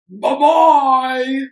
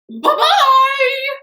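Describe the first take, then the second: First: It is said in a deep, gruff voice. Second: It is said in a medium-pitched voice.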